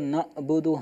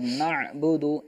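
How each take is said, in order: First: The consonant is a light glottal stop. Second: The consonant is a deep throat sound. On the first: The speaker calls it wrong. "हमज़ा की तरह नहीं पढ़ेंगे" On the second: The speaker calls it right. "इसी तरह पढ़ा जाएगा"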